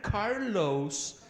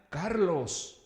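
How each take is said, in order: First: The name is said with an American English accent. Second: The name is said with a Spanish accent. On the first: This is how others say the name. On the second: This is how the name's owner says it.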